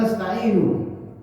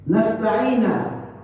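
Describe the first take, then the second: First: The word ends with a u vowel. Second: The word ends with an a vowel. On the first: The speaker calls it right. "Harusnya kan nasta'inu" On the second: The speaker calls it wrong. "Tapi dia baca nasta'ina, tidak ada masalah"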